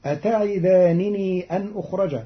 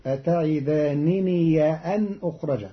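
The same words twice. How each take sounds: First: Said in the usual way. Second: أتعدانني بفتح الياء الأخيرة قبل أن; افتح ياء أتعدانني وصلاً; فتح ياء الإضافة. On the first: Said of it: "قرأ قالون كلمتي". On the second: Shown as a demonstration. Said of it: "بفتح ياء الإضافة". (قراءة قالون أتعداننيَ أن)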